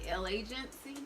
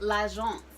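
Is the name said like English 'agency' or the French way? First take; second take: agency; French. First: It is said like the English word agency. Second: It is said as French l'agence, without 'agency'. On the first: The speaker calls it wrong. "It looks like L agency or something like that" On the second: The speaker calls it right. "but it's l'agence"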